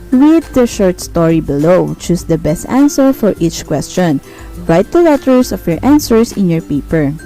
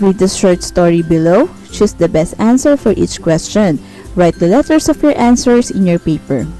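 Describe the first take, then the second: No difference in how they are said.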